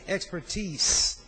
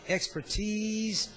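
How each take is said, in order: First: The last syllable ends with an s sound. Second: The last syllable ends with a z sound. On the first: "or E E S" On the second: "as though it's a Z"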